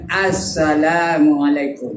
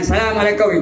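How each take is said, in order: First: The opening 'as' sound is clearly said. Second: The opening 'as' sound is dropped. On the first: The speaker calls it right. "Baru betul. As as nak ada" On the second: The speaker calls it wrong.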